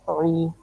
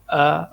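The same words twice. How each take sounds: First: او with a heavy ain from the throat; throaty ain. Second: ا as a light glottal hamza. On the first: Teacher contrasting ain with hamza, throaty ain. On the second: Teacher contrasting hamza with ain, light hamza. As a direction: say ا thin and light. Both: Shown as a demonstration. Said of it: "عین کی آواز گلے سے موٹی آواز".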